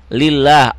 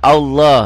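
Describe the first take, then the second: First: "Lillah" with a light, thin L and open A; thin Allah pronunciation. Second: "Allah" with a heavy, dark L and rounded vowel; thick Allah pronunciation. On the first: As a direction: say "Lillah" lightly, as "lil-laah". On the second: Teacher shows thick reading after an upper vowel, heavy "Allah". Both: Shown as a demonstration. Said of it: "lafad Allah menjadi tipis dan tebal tergantung baris sebelumnya".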